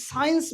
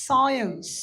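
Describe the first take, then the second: First: Science said the wrong way, slowly; wrong pronunciation. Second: Science said cleanly as sai-ens; correct pronunciation. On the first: Teacher to students, imitating wrong science. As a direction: show the mistaken science. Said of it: "science ভুল উচ্চারণ". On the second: Teacher to students, modelling correct science. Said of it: "ভুল উচ্চারণ is science". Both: Shown as a demonstration.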